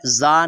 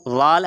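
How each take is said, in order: First: जा as a buzzed "zaa"; whistling z opening in जा; Zaa sound. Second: ज़ाल with the tongue tip at the teeth; Zaal sound. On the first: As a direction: say जा with a plain z. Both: Shown as a demonstration. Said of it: "जा नहीं है".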